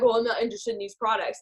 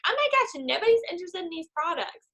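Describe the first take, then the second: First: Said in the usual way. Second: High-pitched overblown dismay; mock panic. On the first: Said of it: "So then they're like". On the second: Discouraged seller doubting the products, mock panic. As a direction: wail it as a hammed-up catastrophe. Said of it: "then you get this mentality".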